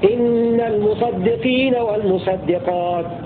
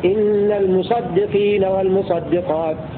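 Both takes have the same delivery.

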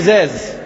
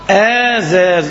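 First: The name starts with a short 'i' sound. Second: The name starts with a long 'aa' sound. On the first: This form is easy to remember. The speaker calls it wrong. "هقول لك اسمها يعني عشان ما تنسوش بطريقة" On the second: This is the proper form of the name. The speaker calls it right. "النطق الصحيح آزاز"

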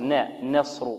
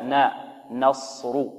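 First: The vowel after n leans toward an 'e' sound. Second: The vowel after n is a plain open 'a'. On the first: The speaker calls it wrong. "يريد أن يرقق النون فيميلها أو يقللها" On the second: The speaker calls it right. "لا"

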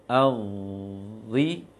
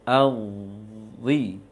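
The two takes are said the same way.

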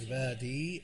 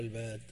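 First: The word ends with a long ee vowel. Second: The word ends on the consonant d. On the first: "بالياء" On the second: "بغير ياء"

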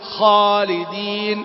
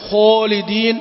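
First: The first sound is said with unrounded lips. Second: The first sound is said with rounded lips. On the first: The speaker calls it right. "لا" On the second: The speaker calls it wrong. "نحذر عند المفخمات غير المضمومة من ضم الشفتين"

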